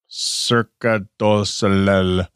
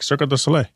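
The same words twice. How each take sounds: First: The name is said slowly and carefully. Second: The name is said quickly and casually. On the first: "I'm gonna butcher this" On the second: "I usually say it fast"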